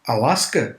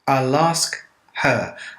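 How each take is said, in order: First: The words blur together with a weak her. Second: Each word is said clearly and separately.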